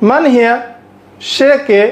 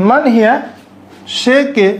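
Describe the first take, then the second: The two takes are said the same way.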